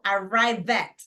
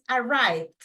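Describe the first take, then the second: First: The ending is said as an extra syllable. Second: The ending is just a small d sound. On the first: The speaker calls it wrong. "aquí yo no digo arrive at" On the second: The speaker calls it right. "una pequeña d al final"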